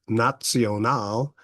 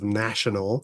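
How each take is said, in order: First: It is said with a German pronunciation. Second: It is said with an English pronunciation.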